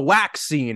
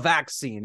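First: The word begins with a w sound. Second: The word begins with a v sound. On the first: "All of the W's aren't now V's. So we call it the waxing" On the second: "and not the vaccine"

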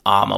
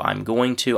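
First: The whole phrase collapses into two short syllables. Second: I am is contracted, going to stays full. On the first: "which is really the most reduced way of saying that you could possibly still be understood" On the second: "with a contraction"

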